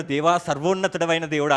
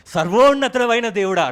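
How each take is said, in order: First: Said in the usual way. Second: Lightly louder, pompous copy of the prayer; mock grand invocation. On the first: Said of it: "దానియేలు ఏమన్నాడు". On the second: Preacher mocks his own borrowed prayer words, a bit louder. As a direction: copy Daniel's words with put-on weight. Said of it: "నేను కూడా అవే".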